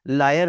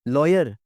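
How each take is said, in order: First: The first vowel is an open unrounded 'ah'. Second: The first vowel is a rounded 'aw'. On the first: The speaker calls it wrong. "लायर नहीं" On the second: The speaker calls it right. "लॉयर होते हैं"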